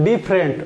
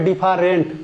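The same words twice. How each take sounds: First: The middle vowel is dropped, giving two syllables. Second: The middle vowel is pronounced, giving three syllables. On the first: The speaker calls it right. "কিন্তু হবে দেখেন ডিফারেন্ট" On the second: The speaker calls it wrong. "অনেকে মনে করে ডিফারেন্ট"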